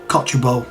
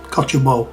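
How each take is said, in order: First: The word begins with a 'coch' sound. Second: The word begins with a 'coch' sound.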